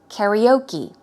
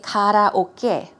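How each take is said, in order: First: It is said with a Western English pronunciation. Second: It is said with a Korean-style pronunciation. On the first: "They will say karaoke" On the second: "I think in Korea we say karaoke"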